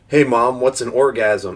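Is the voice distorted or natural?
natural. It is said in a normal speaking voice.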